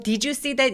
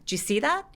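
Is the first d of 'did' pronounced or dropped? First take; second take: pronounced; dropped. First: The first d of 'did' is pronounced. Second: The first d of 'did' is dropped. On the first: "이렇게도 하지만" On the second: "d는 발음을 안 할 때가 되게 많아요"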